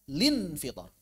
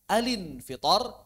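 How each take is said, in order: First: It starts straight on the syllable lin. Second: The l joins the next vowel: a-lin. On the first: "bisa lin fitor" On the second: "Bisa alin fitor"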